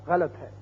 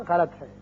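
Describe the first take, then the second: No difference in how they are said.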